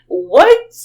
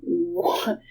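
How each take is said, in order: First: Loud, high rising question; incredulous outburst. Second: Hushed, hesitant first reaction; stunned disbelief. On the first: Aunt seeing the lady keep up, loudly incredulous. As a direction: burst out in mock disbelief. Stunned aunt in retold story. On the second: Aunt reacting to the lady keeping up, stunned. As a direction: let it slip out softly in shock. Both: Retold or imitated.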